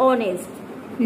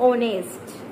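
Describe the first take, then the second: No difference in how they are said.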